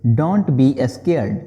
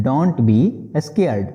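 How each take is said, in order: First: Very slow, word by word; slow model sentence. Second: Slow restatement before explaining; slow repeat. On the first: Teacher modelling the English phrase slowly for students. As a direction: spell it out slowly for learners. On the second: Teacher repeating the phrase slowly before translating. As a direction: say it again slowly. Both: Shown as a demonstration. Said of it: "बोलेंगे".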